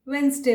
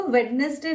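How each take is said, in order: First: "वेडनेसडे" with silent d, wens-day; correct pronunciation. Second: "वेडनेसडे" with the d sounded, wed-nes-day; common mispronunciation. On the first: Teacher giving learners the right "वेडनेसडे", said wens-day. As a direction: squeeze "वेडनेसडे" into two syllables, wens-day. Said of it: "वेडनेसडे बोलिए". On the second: Teacher showing learners the wrong "वेडनेसडे", d fully sounded. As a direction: say all three syllables of "वेडनेसडे". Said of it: "ना बोल के". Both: Shown as a demonstration.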